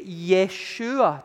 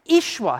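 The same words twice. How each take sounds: First: The name begins with a 'yeh' sound. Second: The name begins with an 'ee' sound. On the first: The speaker calls it wrong. "Sometimes people say Yeshua today, but that's not how you pronounce it" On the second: The speaker calls it right. "The Y and the E are E"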